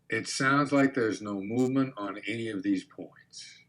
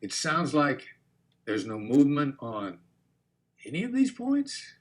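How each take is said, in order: First: Soft, even label falling on "these points"; quiet statement, "points" dropping at the end; downward inflection. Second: Pause, then lift "any of these points" way up; upward inflection. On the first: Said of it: "Notice the downward inflection". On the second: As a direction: turn it into a gentle question, "these points" swinging up. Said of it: "hit 'em with the upward inflection". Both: Shown as a demonstration.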